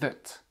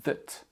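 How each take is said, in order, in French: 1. La voyelle est un son schwa faible et réduit. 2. La voyelle est un son schwa faible et réduit.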